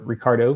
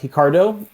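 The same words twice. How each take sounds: First: The name is said with English pronunciation. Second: The name is said with Portuguese pronunciation. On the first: "for pretty much the rest of the world" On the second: "as the Portuguese pronunciation"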